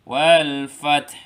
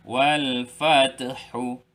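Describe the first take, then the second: First: The last word ends on a bare consonant. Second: The last word ends with a short vowel. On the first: The speaker calls it right. "kita mesti matikan huruf yang terakhir" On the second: The speaker calls it wrong.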